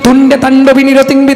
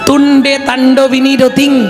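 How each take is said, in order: First: The phrase is recited quickly without breaks. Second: The phrase is recited very slowly and deliberately.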